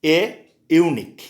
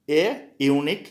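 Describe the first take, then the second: First: Slow model phrase. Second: Said in the usual way. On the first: Shown as a demonstration. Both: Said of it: "more example दे रहे हैं".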